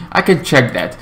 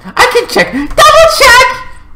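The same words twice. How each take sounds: First: Said in the usual way. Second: Very high, rising squeal; playful squeal. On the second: Pretend. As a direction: squeak it, building to a screech. Clowning while checking.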